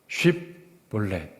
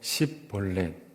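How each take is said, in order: First: The word begins with an sh sound. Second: The word begins with an s sound. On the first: The speaker passes as a local. The speaker calls it right. "쉽벌렛 이렇게 하면 괜찮은데" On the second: The speaker is exposed as an outsider. The speaker calls it wrong. "그러지 못하고 십벌렛 이러면 잡았다"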